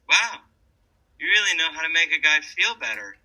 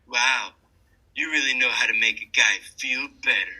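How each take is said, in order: First: It is said in a sincere, genuine tone. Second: It is said in a sarcastic, cutting tone. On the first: The speaker truly means the words. "He sounds really authentic, and I kind of believe him" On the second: The speaker means the opposite of the words. "that sounds like a, a sarcastic, cutting remark"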